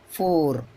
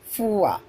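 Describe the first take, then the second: First: The vowel is a single plain 'aw' sound. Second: The vowel glides from 'oo' into 'uh'. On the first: The speaker calls it wrong. "generally we pronounce" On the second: The speaker calls it right. "according to pronunciation"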